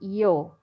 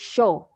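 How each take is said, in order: First: It begins with an English y sound. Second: It begins with an English sh sound. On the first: It sounds like many other countries. "in many countries they say yo. Yes, like an I" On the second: It sounds Argentine or Uruguayan. "they use uh, sh like uh, like sh in English"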